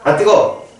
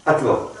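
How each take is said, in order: First: Higher, abrupt cry at heat; startled yelp. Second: Said in the usual way. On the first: Shown as a demonstration. Teacher demonstrating first quiz option, startled yelp. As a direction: yelp as if just burned. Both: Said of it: "어떤 게 정답일까?".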